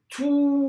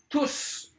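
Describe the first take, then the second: First: The word ends without any s sound. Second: The word ends with an audible s sound. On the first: "ici, j'ai dit tout" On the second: "ici, j'ai dit tous"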